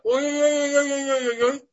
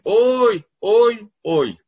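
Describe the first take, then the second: First: The wails are very short and quick. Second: The wails are long and drawn out. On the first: "Один способ – это такие очень коротенькие завывания" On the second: "И второй – это длинные"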